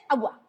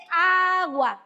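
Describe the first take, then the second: First: Put-on toddler's "agua", said short and quick; "agua" run together as a toddler would; child's mispronunciation. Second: "agua" stretched out slowly, first A held long; slow, drawn-out "agua", every syllable clear; corrected pronunciation. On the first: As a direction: mimic a small child's quick, slurred "agua". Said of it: "No se dice agua". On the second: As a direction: model "aaa-gua" slowly for a toddler. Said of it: "se dice agua". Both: Shown as a demonstration.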